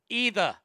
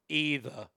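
First: Australian accent with a higher-pitched voice. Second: Boston accent with a lower-pitched voice. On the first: "See, but it's higher" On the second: "Boston, you got to be lower"

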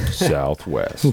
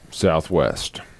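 First: It is said in a put-on announcer voice. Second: It is said in a plain speaking voice.

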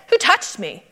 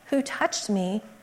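First: It is asked in a sharp, accusing tone. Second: It is asked in a gentle, curious tone. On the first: The asker is annoyed and rebuking someone. The speaker calls it wrong. "It wasn't like, "Hey" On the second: The asker simply wants to know who it was. The speaker calls it right. "in a way that evokes more curiosity than rebuke"

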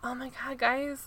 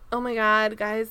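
First: A put-on voice with much more breathiness. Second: A put-on voice with little breathiness. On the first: The speaker calls it right. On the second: The speaker calls it wrong.

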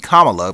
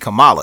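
First: The name starts like 'comma', ending in 'la'. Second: The name does not start like 'comma'. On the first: "sounds like comma with la at the end" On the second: "it's got to be Kamala"

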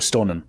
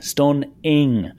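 First: The final ng sound is dropped or weakened. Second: The final ng sound is clearly pronounced. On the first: The speaker calls it wrong. "I don't really announce the ing properly" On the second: The speaker calls it right. "my dad would always just go ing stunning"

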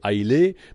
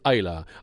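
First: The name is said the common outside way. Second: The name is said the local way. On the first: This is how outsiders usually say it. "souvent on l'appelle Islay" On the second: This is how the island's natives say it. "mais nous autochtones on la prononce Aïla"

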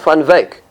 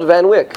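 First: The name is said with Dutch sounds. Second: The name is said with English-style sounds. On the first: The speaker calls it right. "That's how you pronounce it in Dutch" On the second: The speaker calls it wrong. "His name was not Van Wyk"

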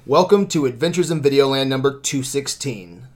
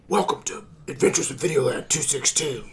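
First: It is said in his normal voice. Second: It is said in a gravelly Batman voice.

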